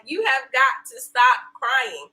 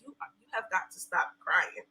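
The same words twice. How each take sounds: First: Slow, deliberate imitated insistence; husband's slow plea. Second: Softer, lower, firm imitation; husband's quiet plea. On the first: Husband insisting wife stop crying, slow emphatic retelling. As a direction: spell it out slowly to her. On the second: Husband to crying wife, quiet firm imitation. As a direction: quietly urge her to stop. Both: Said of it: "he was like".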